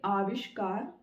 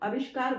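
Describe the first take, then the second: First: The first vowel is a long 'aa'. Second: The first vowel is a short 'a'. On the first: "वो आ की sound देगा, मतलब अ से ज्यादा लंबा" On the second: "जब अ बोलेंगे तो लिखेंगे भी अ"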